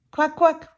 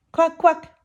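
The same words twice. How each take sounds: The two takes are said the same way.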